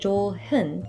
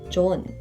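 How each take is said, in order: First: An h sound is heard in the middle. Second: No h sound is heard in the middle. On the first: The speaker calls it wrong. "the pronunciation is not 좋은" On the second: The speaker calls it right. "but rather just 좋은"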